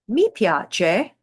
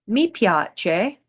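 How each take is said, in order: Both takes have the same delivery.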